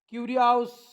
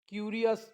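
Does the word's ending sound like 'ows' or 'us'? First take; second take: ows; us. First: The ending is a long 'ows' sound. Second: The ending is a short 'us' sound. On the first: The speaker calls it wrong. "असं नाही" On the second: The speaker calls it right. "पुन्हा वाचून दाखवतो"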